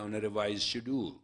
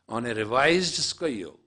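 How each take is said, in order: First: The word is said in the English pronunciation. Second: The word is said in a non-English pronunciation. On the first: "those who are in English, I say" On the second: "It's the same word. Pronunciation is different"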